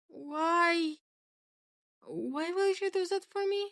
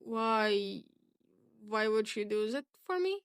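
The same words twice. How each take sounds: First: It is voiced in a different character's voice. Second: It is voiced in Hitoshi's character voice.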